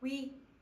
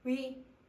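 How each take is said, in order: First: The vowel glides, changing quality as it is said. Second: The same.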